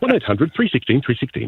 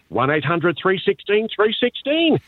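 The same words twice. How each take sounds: First: Announcer-style phone number read. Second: Number read high in broad country twang; Aussie farmer voice. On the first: Shown as a demonstration. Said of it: "I'll try something on the spot". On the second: Retold or imitated. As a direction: outback farmer reading the phone number. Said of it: "your typical Aussie voice".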